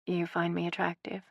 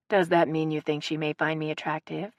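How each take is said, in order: First: "You find me attractive?" asked much softer, hushed; lowered voice. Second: Said in the usual way. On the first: A narrator's reading. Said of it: "She lowered her voice".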